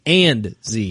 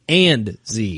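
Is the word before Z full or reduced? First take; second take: full; full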